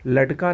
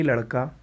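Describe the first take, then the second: First: लटका with a hard t sound; a retroflex stop in लटका; wrong pronunciation. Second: लड़का with a flapped r sound; correct pronunciation. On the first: (लटका में "ट" की ध्वनि) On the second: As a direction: flap the middle consonant of लड़का. (लड़का में "ड़" की ध्वनि) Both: Shown as a demonstration. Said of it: "नहीं".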